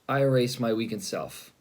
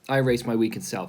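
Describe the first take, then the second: First: It is said with heavy, pained feeling. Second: It is said lightly, with detached indifference. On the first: The words still connect to an inner hurt. "in the beginning, in my tone, I erase my weakened self feels so, um, you feel it" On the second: The words no longer carry any meaning. "by the end, I'm saying it like"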